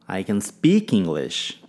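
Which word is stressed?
speak. The stress falls on the word speak. The point is that the speaker actually speaks it. "Ênfase em speak"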